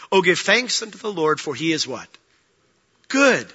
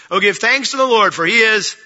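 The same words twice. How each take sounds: First: Said in the usual way. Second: Louder call and response. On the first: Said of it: "Well, that was weak". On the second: Shown as a demonstration. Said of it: "There we go".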